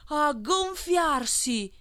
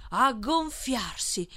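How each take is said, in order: First: "a gonfiarsi" much higher and long drawn out; swelling climax. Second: "a gonfiarsi" drawn out a little higher; building repetition. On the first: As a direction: blow up "a gonfiarsi" towards bursting. Last repetition, swelling to bursting. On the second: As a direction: stretch "a gonfiarsi" as the swelling begins. Repetition acts out the swelling. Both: A narrator's reading.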